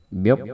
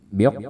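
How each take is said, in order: The two takes are said the same way.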